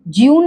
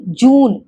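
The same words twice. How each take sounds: First: ज्यून with 'yoo' after the j; y-glide mispronunciation. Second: जून with a pure long 'oo', no y-glide; oo sound. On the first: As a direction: say ज्यून as 'jyoon', y slipped in. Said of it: "ज्यून नहीं होता है". (ज्यून, य की आवाज़ जोड़कर) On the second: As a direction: say जून as 'joon'. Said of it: "ऊ sound आती है इसमें". (जून, लंबे ऊ के साथ) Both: Shown as a demonstration.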